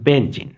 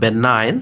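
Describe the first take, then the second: First: The middle has a 'j' sound. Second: The middle has no 'j' sound. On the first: The speaker calls it wrong. "অনেক সময় এটা ভুল উচ্চারণ হয়ে যায়" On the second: The speaker calls it right. "প্রকৃত উচ্চারণটা হবে বেনাইন"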